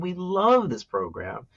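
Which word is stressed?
love. The stress falls on the word "love". It is about how they feel about the program. "one is about how we feel"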